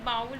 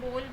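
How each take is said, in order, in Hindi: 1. स्वर 'cow' के 'ow' की तरह सरकता है। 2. स्वर एक सादा 'o' ध्वनि है। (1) "पहले इसे क्या बोलते थे, बाउल बोलते थे" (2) "आजकल क्या बोला जाता है, बोल बोला जाता है"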